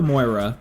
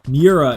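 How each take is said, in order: First: It is said like 'Moira', with an 'oy' sound. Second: It is said like 'Mee-oo-ra', with separate vowels. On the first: The speaker calls it wrong. "I was doing the U and the I backwards" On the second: The speaker calls it right. "Miura is how you pronounce it"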